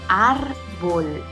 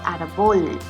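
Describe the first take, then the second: First: The stress is on the first syllable. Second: The stress is on the last syllable. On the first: The speaker calls it right. "es árbol. ¿Y cuál es su sílaba tónica? Pues ar" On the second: The speaker calls it wrong. "no es árbol"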